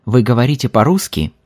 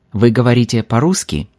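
Both takes have the same delivery.

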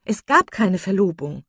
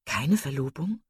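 First: Loud falling statement, stress on "gab"; emphatic denial. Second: Unraised voice, "Verlobung" lifting at the end; questioning echo. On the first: Marian corrects her sister about the engagement, emphatic denial with "gab" stressed. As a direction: cry it out, punching "gab". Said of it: "rief Marian". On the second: Elinor checks what her sister said, questioning echo rising on "Verlobung". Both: A narrator's reading.

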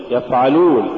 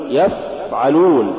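First: Said in the usual way. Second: يفعلون with a long blown ف; overdone fa. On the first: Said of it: "قل". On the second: Shown as a demonstration. Teacher warning against exaggeration, overlong ف in يفعلون. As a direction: drag out the ف in يفعلون. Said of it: "ولا تقل".

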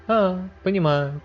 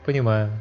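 First: High, slow condescending drawl; slow haughty drawl. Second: Said in the usual way. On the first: A narrator's reading. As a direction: stretch it out, bored and superior. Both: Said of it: "высокомерно заявил".

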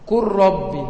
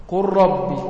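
The two takes are said the same way.

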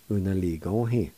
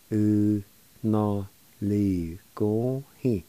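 First: Said in the usual way. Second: "U na li go hi." slowly, every syllable stretched; slow, careful pronunciation. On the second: Shown as a demonstration. Teacher repeating "U na li go hi." for learners, slowly. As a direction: draw out each syllable of "U na li go hi.". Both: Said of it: "It's pronounced like this".

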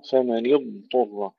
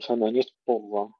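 First: فمن اضطر with a clear, drawn-out, heavy ض; clear emphatic dad. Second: فمن اضطر with the ض merged into the ط; wrong merged dad. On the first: Teacher shows students the correct ض, clear and heavy. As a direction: stretch and thicken the ض in اضطر. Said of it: "إظهار الضاد مع استطالتها وتفخيمها". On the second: Teacher imitates a student's error, ض swallowed. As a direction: slur the ض into the ط as a mistake. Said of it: "خطأ". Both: Shown as a demonstration.

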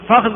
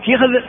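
First: فخذ as fakhdh; lightened middle. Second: فخذ as fikhdh; shifted vowel. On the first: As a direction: say فخذ in one syllable with a. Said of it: "فخذ ثلاثة". (فخذ بفتح الفاء وتسكين الخاء) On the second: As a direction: say فخذ in one syllable with i. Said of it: "ثلاثة". (فخذ بكسر الفاء وتسكين الخاء) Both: Shown as a demonstration.

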